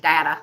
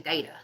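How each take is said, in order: First: It is said with an American pronunciation. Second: It is said with a British pronunciation. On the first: "We say data" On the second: "Most people I know for the U K say data"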